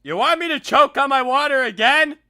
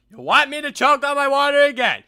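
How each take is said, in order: First: Taunting shout. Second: Mock choking voice. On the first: Acted. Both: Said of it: "another impersonation".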